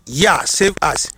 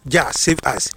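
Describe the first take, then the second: First: "Yah" said with a y sound, as "Ya", slow. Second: "Jah" said with an English j sound, as "Ja"; Jah pronounced with j. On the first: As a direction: correct it to "Yah" with a y, slowly and deliberately. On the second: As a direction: say "Jah" the common way with a j, then save us. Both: Shown as a demonstration. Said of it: "but ɛyɛ Yah".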